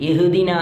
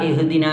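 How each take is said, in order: No difference in how they are said.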